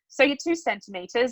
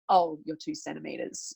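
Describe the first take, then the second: First: It sounds upbeat and encouraging. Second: It sounds flat and disappointed.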